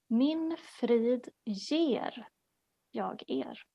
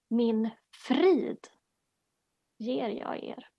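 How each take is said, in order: First: The stress is on the word 'ger'. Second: The stress is on the word 'frid'.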